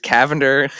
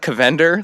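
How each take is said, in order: First: The name rhymes with lavender. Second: The name rhymes with Avengers. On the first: The speaker calls it right. "It's Cavender, Like lavender" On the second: The speaker calls it wrong. "it's not Cavender like Avengers"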